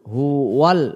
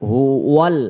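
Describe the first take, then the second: No difference in how they are said.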